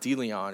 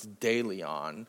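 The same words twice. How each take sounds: First: The name is said with an Americanized pronunciation. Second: The name is said with a non-Americanized pronunciation. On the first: The speaker calls it wrong. "it's not De Leon" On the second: The speaker calls it right. "it's De Leon"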